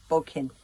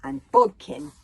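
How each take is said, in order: First: Said in the usual way. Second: Loud, high call of the name; ringing loud introduction; emphatic introduction. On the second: A narrator's reading. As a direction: announce the name with a flourish. Narrator introduces a character.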